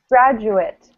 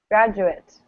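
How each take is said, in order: First: The ending sounds like 'it'. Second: The same.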